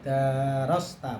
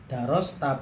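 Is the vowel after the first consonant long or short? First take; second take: long; short. First: The vowel after the first consonant is long. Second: The vowel after the first consonant is short.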